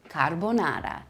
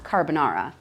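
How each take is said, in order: First: Carbonara with tapped R's and full O; correct Italian pronunciation. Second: Carbonara with English R's, car-buh-NAR-uh; anglicized mispronunciation. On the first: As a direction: say "carbonara" as kar-bo-NA-ra. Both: Shown as a demonstration. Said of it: "not carbonara".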